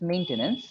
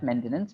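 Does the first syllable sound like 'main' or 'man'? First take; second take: main; man. First: The first syllable sounds like 'main'. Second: The first syllable sounds like 'man'. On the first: The speaker calls it right. "It's actually main. The A sound is there" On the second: The speaker calls it wrong. "you said man"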